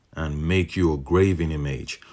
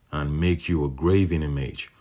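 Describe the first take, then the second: The two takes are said the same way.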